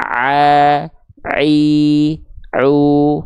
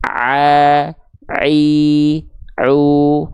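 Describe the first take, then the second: First: The vowels sound clear, resonating only in the mouth. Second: The vowels sound clear, resonating only in the mouth.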